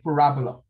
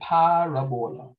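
First: It uses the American pronunciation of the word. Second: It puts emphasis on the first vowel sound. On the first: "if you come from America, they call it parabola" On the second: "we give an emphasis on the first vowel sound"

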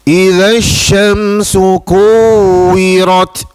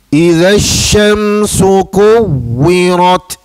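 The two takes are said the same way.

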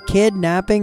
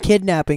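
First: The two parts are said separately, not run together. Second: The two parts are run together quickly as one word.

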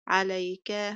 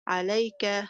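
First: The second syllable does not carry the stress. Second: The second syllable carries the stress. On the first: The speaker calls it wrong. "وليست عليك" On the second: The speaker calls it right. "ونقول عليك"

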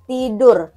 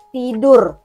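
Both takes have the same delivery.

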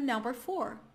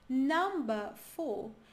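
First: It is said with an American accent. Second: It is said with a British accent. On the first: "No americano" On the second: "no britânico você diz"

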